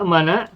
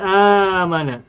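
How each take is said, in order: First: A glottal stop follows the first vowel. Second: The first vowel is long with no stop. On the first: This is the underlying form before the change. "Semula adalah a'mana" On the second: This is the form actually used. "dijadikan mad badal. Sehingga menjadi amana"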